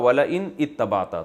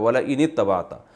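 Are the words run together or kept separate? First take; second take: separate; run together. First: The words are kept separate without linking. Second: The words are joined with the alif silent. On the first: This is the underlying written form. "असल में था" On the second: This is how it is actually recited. "मिला के पढ़ा जाता है, अलिफ साइलेंट हो जाता है"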